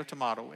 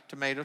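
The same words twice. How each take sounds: First: Tomato said tuh-MAH-toe; alternative pronunciation. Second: Tomato said tuh-MAY-toe; first pronunciation. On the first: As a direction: say tomato with an open "ah". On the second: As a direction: say tomato with a long "ay". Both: Shown as a demonstration. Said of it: "Either one works".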